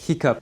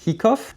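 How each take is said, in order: First: The word ends with a sound like 'cup'. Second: The word ends with a sound like 'cough'. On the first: The speaker calls it right. "La bonne prononciation, c'est hiccup" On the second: The speaker calls it wrong. "tu as probablement faux"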